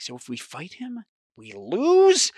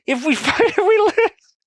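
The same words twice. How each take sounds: First: Starts hushed, jumps high on "lose"; dawning disbelief. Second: Very high, loud squeal of disbelief; laughing in despair. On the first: Realizes the rule means defeat. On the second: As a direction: squeal the question through helpless laughter. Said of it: "I'm laughing, but I'm crying". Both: Real, not acted.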